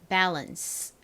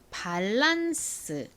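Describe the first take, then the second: First: The vowels are American, the second one reduced. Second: Both vowels are open 'ah' sounds, Korean style. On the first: The speaker calls it right. "실제 미국식 영어 발음으로는" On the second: The speaker calls it wrong. "한국식으로 읽을 때에는 A를 둘 다 아 소리로 읽어서 보통 밸런스 이렇게"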